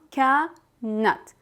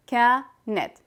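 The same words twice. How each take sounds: First: كانت said as kaa-nat, ending in at; fatha ending. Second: كانت said as kaa-net, ending in et; kasra ending. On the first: Teacher explaining some people's fatha, كانت ending in at. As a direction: end كانت on an a sound before t. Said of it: "they will add fatha". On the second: Teacher explaining kasra to learners, كانت ending in et. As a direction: end كانت on an e sound before t. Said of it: "ending with the sound et". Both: Shown as a demonstration.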